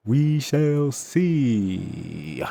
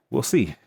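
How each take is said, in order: First: WE SHALL SEE stretched out very slowly and high; playful, high, very slow "We shall see"; drawn-out suspense. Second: Said in the usual way. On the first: Pretend. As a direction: draw out every word of "We shall see", holding SEE long.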